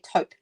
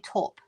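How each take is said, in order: First: It is pronounced the way Americans say it. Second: It is pronounced in the speaker's non-American way. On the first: "I think Americans say taupe" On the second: "but we say taupe"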